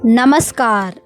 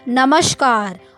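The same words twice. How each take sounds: First: The hissing sound is a plain s. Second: The hissing sound is an sh. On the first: The speaker calls it right. "ये सही शब्द है" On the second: The speaker calls it wrong. "उच्चारण में गलती करके इसे बोल देते हैं"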